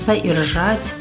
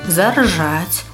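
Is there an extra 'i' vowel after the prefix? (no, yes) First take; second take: yes; no. First: An extra i vowel follows the prefix. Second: No extra vowel follows the prefix. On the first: The speaker calls it wrong. "Нельга казати" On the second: The speaker calls it right. "Правильно буде тільки"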